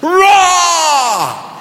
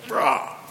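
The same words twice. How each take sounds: First: The roar is as loud as possible. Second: The roar is fairly soft.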